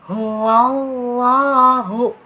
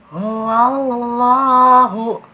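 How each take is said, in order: The two takes are said the same way.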